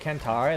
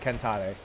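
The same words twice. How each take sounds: First: It is said with a plain American accent. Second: It is said with a foreign-sounding accent. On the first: "I'd rather say" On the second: "I just don't got the accent to make it sound good"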